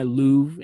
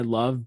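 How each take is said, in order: First: The vowel sounds like the one in 'move'. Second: The vowel sounds like the one in 'glove'.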